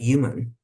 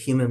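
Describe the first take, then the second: First: The word begins with a y sound. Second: The word begins with an h sound. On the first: "it's with a Y" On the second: "human with an H"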